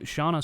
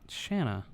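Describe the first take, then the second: First: The first vowel sounds like 'awn' in 'dawn'. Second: The first vowel sounds like 'an' in 'can'. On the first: The speaker calls it wrong. "I threw out Shauna" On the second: The speaker calls it right. "Shanna Stoker"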